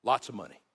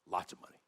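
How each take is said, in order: First: Said in the usual way. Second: Repeated softly, lower, as an afterthought; softer murmured repeat of lots of money; quiet echo. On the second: Shown as a demonstration. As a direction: let it fall away into a soft echo. Quiet echo of the previous phrase.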